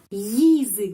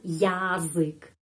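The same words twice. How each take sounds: First: The first vowel is reduced to an i sound. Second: The first vowel is a full ya sound. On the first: The speaker calls it right. "itu pengucapannya seperti y atau y" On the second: The speaker calls it wrong. "bukan язык"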